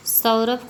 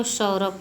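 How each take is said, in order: First: Said in the usual way. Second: Second सौरभ with sh, like shaurobh; Bengali pronunciation. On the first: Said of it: "जैसे बंगाली व्यक्ति". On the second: Shown as a demonstration. Teacher showing how Bengalis say it, sh-sound सौरभ. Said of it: "को सौरभ बोलते हैं".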